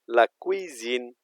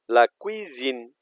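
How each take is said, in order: No difference in how they are said.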